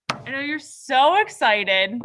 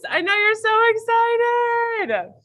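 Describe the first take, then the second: First: Lightly teasing, dry. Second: Higher, louder sarcastic tease. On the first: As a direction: tease the class a little. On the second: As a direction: ham up the fake excitement. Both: Pretend.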